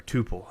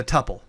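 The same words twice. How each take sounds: First: "tuple" said TOO-pul; "tuple" with a long oo in the first syllable; long-oo pronunciation. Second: "tuple" rhyming with supple; "tuple" with a short u; short-u pronunciation. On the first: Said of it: "People pronounce it differently". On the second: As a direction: say "tuple" as TUP-ul, with the vowel of cup. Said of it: "however you pronounce it in Python". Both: Shown as a demonstration.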